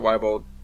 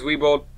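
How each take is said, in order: First: The first syllable sounds like 'why'. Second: The first syllable sounds like 'wee'. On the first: The speaker calls it wrong. "pronounce it Weibold" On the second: The speaker calls it right. "Name's Weebold"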